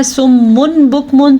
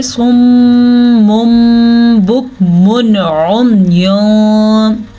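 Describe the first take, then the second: First: सुम्मुन ending in a clear n, no long hum; wrong reading demo. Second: सुम्मुम with a long hummed m, then बुकमुन उम्युन drawn out; correct recitation demo. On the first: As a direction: say सुम्मुन बुकमुन quickly with n instead of m. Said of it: "मीम को ना पढ़ के गलती कर दी". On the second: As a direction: recite slowly, holding the m of सुम्मुम. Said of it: "हम इसको पढ़ेंगे". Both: Shown as a demonstration.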